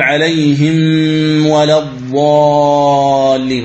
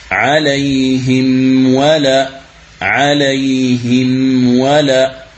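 First: عليهم ولا chanted slowly, the meem hidden into the waw; slow sung recitation with a swallowed meem before ولا; wrong tajweed. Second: عليهم ولا very slow, the meem clearly voiced before ولا; slow careful recitation with a distinct meem; correct tajweed. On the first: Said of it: "هذا خطأ". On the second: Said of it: "هذه هي القراءة الصحيحة". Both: Shown as a demonstration.

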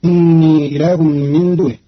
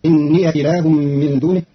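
First: إني with silent ya, innii; slow recited innii; standard reading. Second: إني with fatha, inniya; slow inniya, ya opened; Qalun reading. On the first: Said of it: "بفتح ياء الإضافة". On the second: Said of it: "فتصير". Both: Shown as a demonstration.

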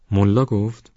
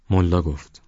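First: Higher-pitched questioning «ملا گفت؟»; surprised echo question. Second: Said in the usual way. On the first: A narrator's reading. Ismail questions Chouli's answer, surprised. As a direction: repeat it back as a surprised question.

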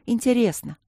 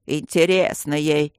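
First: Light, higher voice, falling gently; young student's admission. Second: Disgruntled grumble. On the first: Student admitting the exam was interesting, light high voice. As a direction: answer simply in a higher girlish voice. Student answers, then gets echoed. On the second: Guardian echoing the student's word, displeased slow grumble. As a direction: repeat it grudgingly, dragging it out. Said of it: "недовольно пробурчал Аристарх". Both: A narrator's reading.

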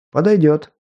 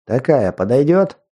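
First: «Подойдёт» higher with a falling close; «Подойдёт» said firmly, dropping at end; agreeing fall. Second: «подойдёт» rising as a question; «подойдёт» lifted up at the end; question rise. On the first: Богомол соглашается. («Подойдёт» утвердительно, с понижением) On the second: Капитан спрашивает про матрицу. («подойдёт?» с вопросительным подъёмом) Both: Acted.

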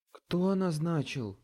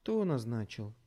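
First: Slow, pressing repeat; slower, firmer repeated demand; repeating menacingly. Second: Flat, level question; cold level demand; even voice. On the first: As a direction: lean on each word, slowly. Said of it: "повторила она". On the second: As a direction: ask calmly, no emotion. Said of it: "ровным голосом спросила Мэрил". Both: A narrator's reading.

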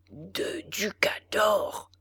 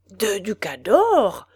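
First: Slow, soft whisper through clenched teeth; muttered between teeth. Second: Slow, indignant outcry of disbelief; exclaiming. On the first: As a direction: grumble the price under your breath. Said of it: "répétait le bourreau entre ses dents". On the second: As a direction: cry out the price as if outraged. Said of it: "s'écria le bourreau". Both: A narrator's reading.

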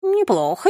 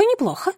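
First: High approving pigeon coo. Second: Even higher pigeon coo, falling. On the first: (воркующий голос голубя) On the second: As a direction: coo the repeat with delight. (воркующий голос голубя, повтор выше) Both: Acted. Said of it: "проворковал первый голубь".

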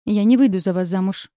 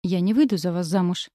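First: Louder, challenging refusal; defiant. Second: Said in the usual way. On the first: A narrator's reading. Girl refuses to marry James, defiant challenge. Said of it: "произнесла с вызовом".

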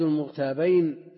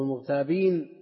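First: المغتابين ending in -ayn, as a dual. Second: المغتابين ending in long -een, as a plural. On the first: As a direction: say المغتابين with a diphthong -bayn at the end. Gives two readings of one word. (المغتابين بصيغة المثنى، بفتح الباء) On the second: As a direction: say المغتابين with -been at the end. Second reading after "or. (المغتابين بصيغة الجمع، بكسر الباء) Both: Shown as a demonstration.

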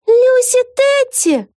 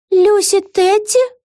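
First: Very high, loud, drawn-out cry; yelling. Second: High, slow, rising question; astonished question. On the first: Vega recognises a familiar huge face, yelling. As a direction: wail the name out at a high pitch. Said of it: "завопила Вега". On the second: Vega comes to her senses, astonished. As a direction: say the name slowly in high-pitched disbelief. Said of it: "удивлённо пробормотала Вега". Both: A narrator's reading.

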